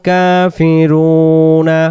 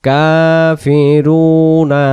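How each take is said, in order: The two takes are said the same way.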